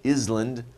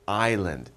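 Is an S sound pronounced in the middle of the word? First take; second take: yes; no. First: An S sound is pronounced in the word. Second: The S is silent in the word. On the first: The speaker calls it wrong. "Not island" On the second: The speaker calls it right. "we don't pronounce the S in island. It's just island"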